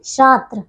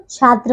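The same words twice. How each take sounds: First: छात्र said as "shaatr"; sh in place of chh in छात्र; wrong sh sound. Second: छात्र said as "chhaatr"; correct chh sound. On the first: Teacher showing pupils the error, छात्र as "shaatr". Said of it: "छात्र नहीं बच्चों". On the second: Teacher correcting pupils, छात्र with clear chh. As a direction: start छात्र on an aspirated chh. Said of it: "छात्र होता है". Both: Shown as a demonstration.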